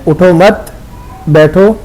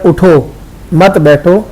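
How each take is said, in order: First: There is a pause right after 'mat'. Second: There is a pause right after 'utho'. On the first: It is an order to sit down. "अगर आपने वक़फ़ यहाँ किया है उठो मत बैठो तो इसका तर्जमा और बिल्कुल अपोजिट हो जाता है" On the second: It is an order to stand up. "अगर आपने यहाँ वक़फ़ किया उठो मत बैठो तो तर्जमा और है"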